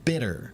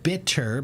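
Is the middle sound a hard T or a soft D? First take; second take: soft D; hard T. First: The middle sound is a soft, quick D. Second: The middle sound is a hard, clear T.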